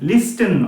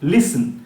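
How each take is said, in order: First: A t sound is heard after the s. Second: No t sound is heard after the s. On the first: The speaker calls it wrong. "লিস্টেন নয়" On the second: The speaker calls it right. "কথাটা কিন্তু লিসন"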